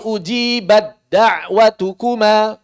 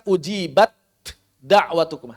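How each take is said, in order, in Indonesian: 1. Huruf t melebur langsung ke d yang mengikutinya. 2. Huruf t dilafalkan terpisah sebelum d. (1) "Langsung ke dal" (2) "Taknya jangan dibaca. Maka jangan dibaca"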